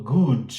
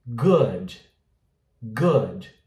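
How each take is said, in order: First: Tense, long oo in "good"; wrong pronunciation. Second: Short, lax oo in "Good"; correct pronunciation. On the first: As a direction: say "good" like "gooood". ("good" com U longo e forte) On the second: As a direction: say "Good" between oo and oh. ("Good" com U curto) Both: Shown as a demonstration. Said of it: "Não falo good".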